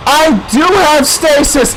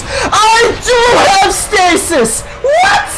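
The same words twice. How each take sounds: First: Raised-pitch startled exclamation; dawning realisation. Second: High, drawn-out screamed realisation; screamed disbelief. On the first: Gamer discovers a forgotten power, surprised exclamation. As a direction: exclaim it as it dawns on you. Realises they had stasis. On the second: Gamer realises the forgotten power, screaming in disbelief. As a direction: scream it slowly, climbing to a squeal. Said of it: "I think I was screaming". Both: Real, not acted.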